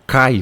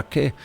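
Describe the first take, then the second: First: "cai" with the full ai glide; wrong, as written. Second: "que" as /kɛ/, one open vowel; correct Greek sound. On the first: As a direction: say "cai" with both vowels. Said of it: "você não fala cai". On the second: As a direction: say "que" softly with a single open e. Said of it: "você fala que". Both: Shown as a demonstration.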